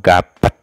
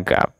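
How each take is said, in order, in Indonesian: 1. Kata itu diakhiri dengan tambahan et. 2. Kata itu berakhir bersih di p. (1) "atau gapet" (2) "bacanya gap"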